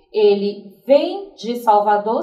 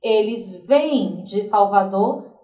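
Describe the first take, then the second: First: Vem drawn out slowly with a rising tune; slow, stressed vem. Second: Vêm drawn out slowly with a rising tune; slow, stressed vêm. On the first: Teacher reading the singular example to the class, slow and stressed. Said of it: "quando eu digo". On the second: Teacher reading the plural example to the class, slow and stressed. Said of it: "eu vou me referir ao plural". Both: Shown as a demonstration.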